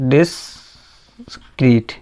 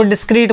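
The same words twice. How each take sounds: First: डिस्क्रीट drawn out slowly, each sound separated; slow spelled-out term. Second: Said in the usual way. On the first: Shown as a demonstration. Teacher repeating डिस्क्रीट slowly for his students. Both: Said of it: "इसको डिस्क्रीट बोल सकते हैं हम लोग".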